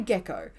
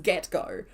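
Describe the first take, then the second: First: The two words blend into 'gecko'. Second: The two words are said clearly apart. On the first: The speaker calls it wrong. "But I still say gecko" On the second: The speaker calls it right. "I definitely know that it's get go"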